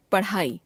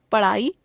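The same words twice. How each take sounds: First: पढ़ाई with aspirated flap ढ़, falling; पढ़ाई as paṛhai, closing fall. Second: पढ़ाई said as पड़ाई, rising; पढ़ाई without aspiration, end lifted. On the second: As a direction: drop the breath of ढ़ in पढ़ाई. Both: Shown as a demonstration. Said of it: "ड़ और ढ़ की अशुद्धियां".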